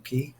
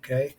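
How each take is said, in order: First: The word sounds like 'key'. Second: The word rhymes with 'day'. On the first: "It wouldn't rhyme if it was perfect day at Coco Key" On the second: "would kind of rhyme perfect day at Coco K"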